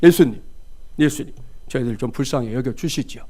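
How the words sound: It sounds stiff and formally polite.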